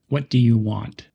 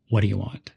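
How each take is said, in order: First: Each word is said separately and fully. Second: The words are blended together smoothly. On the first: The speaker calls it wrong. "Instead of saying each word separately" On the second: The speaker calls it right. "Sounds more like"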